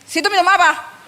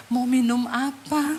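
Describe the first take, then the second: First: High, brusque question; mock-surly hostess voice; imitated rude offer. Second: Slow, gentle hostess voice; softened, courteous question, acted out; changed, polite offer. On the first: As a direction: ask it curtly, as if resentful. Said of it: "Kalau dia tanya gini". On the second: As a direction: offer a drink sweetly and unhurriedly. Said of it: "Ih, langsung loh berubah".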